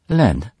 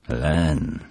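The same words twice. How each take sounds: First: Higher, louder, close to breaking; near tears. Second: Repeating thoughtfully. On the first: Peggy names her beloved, close to breaking down. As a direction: say the name on the edge of crying. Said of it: "odrzekła Peggy, bliska załamania". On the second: Father repeats the name, calm and pondering. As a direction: mull the name over calmly. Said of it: "powtórzył mister Moore". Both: Acted.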